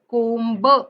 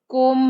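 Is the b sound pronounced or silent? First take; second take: pronounced; silent. First: The b at the end is pronounced. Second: The b at the end is silent. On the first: The speaker calls it wrong. "कोंब नाही म्हणायचंय" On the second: The speaker calls it right. "कोंब म्हणायचंय"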